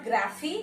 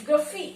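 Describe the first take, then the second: First: Graphy said with a full open a, graa-fee; wrong pronunciation. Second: Graphy said with a weak vowel, gruh-fee; correct pronunciation. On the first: Teacher contrasts the wrong ending for students. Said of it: "it is not graphy". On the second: Teacher models the correct unstressed ending. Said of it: "it is graphy". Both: Shown as a demonstration.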